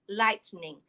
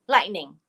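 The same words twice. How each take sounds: First: The word is said slowly and carefully. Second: The word is said at natural speed.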